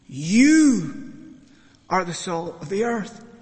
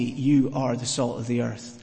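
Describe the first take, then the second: First: The word "You" is strongly emphasized. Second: It is said plainly, no special stress.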